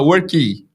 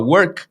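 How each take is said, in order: First: An extra vowel follows the final k. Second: The word ends on the consonant k. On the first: The speaker calls it wrong. "a gente fala worky" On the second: The speaker calls it right. "em vez de falar work"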